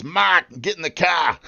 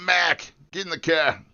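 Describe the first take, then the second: First: Put-on high, broad Massachusetts accent with dropped R's; hammed-up Massachusetts twang. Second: Put-on high New England accent with flattened A in "Mac" and "car"; exaggerated New England vowels, not shouted. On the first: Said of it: "you're probably talking Massachusetts". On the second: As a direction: do a mock New England local. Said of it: "all those guys talk like that".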